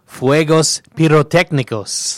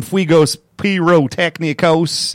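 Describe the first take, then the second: First: Fuegos pirotecnicos said the Spanish way, slowly; Spanish pronunciation. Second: Fuegos pirotecnicos in a bad southern accent. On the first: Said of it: "it's called". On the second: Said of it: "a bad southern accent to say that word". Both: Shown as a demonstration.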